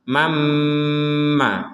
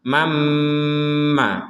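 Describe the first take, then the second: First: The n merges into a doubled, nasal m. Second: The same.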